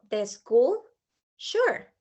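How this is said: A clear pause comes before 'sure'. The reply answers a separate question. The speaker calls it right. "esperamos un momentito y luego, sure"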